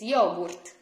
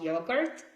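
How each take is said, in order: First: It is said with an Italian pronunciation. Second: It is said with an English pronunciation. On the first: The speaker calls it right. "it's yogurt, because we pronounce all the letters" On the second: The speaker calls it wrong. "so it's not yogurt"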